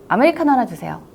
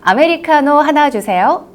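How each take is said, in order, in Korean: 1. 단어들이 느슨하게 대충 이어져 있어요. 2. 각 단어가 분명하고 또박또박 발음돼요. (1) "이렇게 흘리듯이 대충 이야기하잖아요" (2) "한 번만 신경 써서 이야기해보는 거예요"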